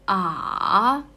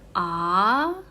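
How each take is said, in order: First: The pitch dips low and then rises. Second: The pitch rises from low to high. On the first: "from the lower up and then it's going down and then up again" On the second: "The second tones is from low to up"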